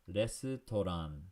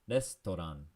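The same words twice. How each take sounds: First: It is said slowly and carefully. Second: It is said at normal conversational speed.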